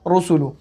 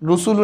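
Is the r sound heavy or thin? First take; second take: heavy; thin. First: The r sound is full and heavy. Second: The r sound is light and thin. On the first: The speaker calls it right. "पुर पढ़ते हैं" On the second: The speaker calls it wrong. "ये गलत होगा"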